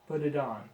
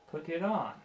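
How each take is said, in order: First: The T sounds are said like Ds. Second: The T sounds are clear stopped Ts. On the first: "most Americans will say, ... with the D sound" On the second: "you have to stop one sound to start the next"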